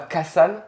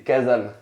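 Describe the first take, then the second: First: The middle consonant is a voiceless s sound. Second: The middle consonant is a voiced z sound. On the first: The speaker calls it wrong. "non pas Kasan, attention, faut pas dire ça" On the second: The speaker calls it right. "c'est Kazan"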